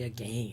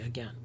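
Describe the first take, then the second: First: The second syllable rhymes with rain. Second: The second syllable rhymes with pen. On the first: The speaker calls it wrong. "we don't say again" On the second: The speaker calls it right. "you say again"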